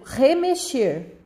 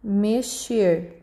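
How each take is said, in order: First: Put-on teacher slowly modelling remexer for children; slow clear remexer. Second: Teacher repeating remexer slowly; slow clear remexer. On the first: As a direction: sound out re-me-xer slowly for the class. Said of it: "como, por exemplo". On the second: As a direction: repeat re-me-xer slowly for the class. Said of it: "Ó". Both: Shown as a demonstration.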